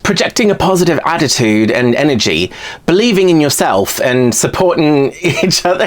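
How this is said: It is read in an attempted British accent. "I can't do a British accent to save my life"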